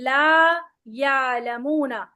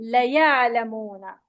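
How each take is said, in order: First: The first vowel is held long. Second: The first vowel is cut short. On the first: They do not know. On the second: They surely know.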